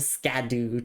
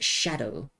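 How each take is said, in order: First: It begins with an sk sound. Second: It begins with an sh sound. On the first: The speaker calls it wrong. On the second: The speaker calls it right. "it's pronounced Shadow"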